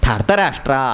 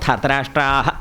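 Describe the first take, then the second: First: The word ends with only a faint, half h. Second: The word ends with a full, strong h sound. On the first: It is the proper reading of the visarga. "അങ്ങനെയാണ് പറയേണ്ടത്" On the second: It is easier for listeners to catch. "ധാർത്തരാഷ്ട്രാഹ എന്ന് പറഞ്ഞ് ശീലിച്ചോളൂ"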